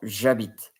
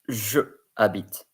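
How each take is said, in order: First: The pronoun is merged into the following vowel. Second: The pronoun is said as its own separate syllable. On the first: The speaker calls it right. "we write it as the J apostrophe or j'habite" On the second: The speaker calls it wrong. "You don't say je habite"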